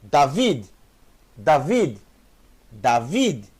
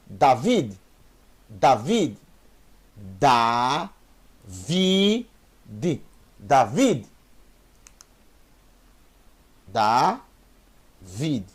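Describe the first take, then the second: First: David with a clear final D; model pronunciation. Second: David with final D joined to the syllable before; repeated model. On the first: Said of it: "você não vai ler Davi D, não". (David com o D final bem pronunciado) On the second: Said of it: "o som da letra final se junta". (David repetido com o D final junto) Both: Shown as a demonstration.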